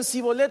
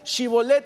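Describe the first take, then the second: First: The word begins with a plain s sound. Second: The word begins with an sh sound. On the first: This is the form they said instead. The speaker calls it wrong. "decían Sibolet" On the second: This is the form they could not say. The speaker calls it right. "no sabían pronunciar Shibolet"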